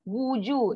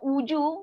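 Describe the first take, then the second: First: The word begins with a rounded w sound. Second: The word begins with a plain u vowel. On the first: The speaker calls it right. "wa depan wu, w, wuju" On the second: The speaker calls it wrong. "jangan uju"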